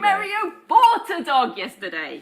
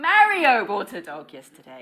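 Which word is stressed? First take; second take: bought; Mario. First: The word bought carries the main stress. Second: The word Mario carries the main stress. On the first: The dog was bought, not stolen. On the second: It was Mario, not Maria.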